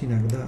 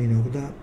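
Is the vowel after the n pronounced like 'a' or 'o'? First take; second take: a; o. First: The unstressed vowel after n sounds like 'a'. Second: The unstressed vowel after n sounds like 'o'. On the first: The speaker calls it right. "y es иногда" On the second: The speaker calls it wrong. "no иногда, porque la O se convierte en A cuando no va acentuada"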